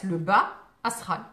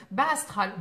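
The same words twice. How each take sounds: First: "le bas astral" said slowly and louder, "bas" lengthened and split from "astral"; careful spelling-out pronunciation. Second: Said in the usual way. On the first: Shown as a demonstration. To viewers in chat, slowly clarifying "bas astral". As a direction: spell out "bas" clearly, slow, louder, each part separate. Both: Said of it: "B A S".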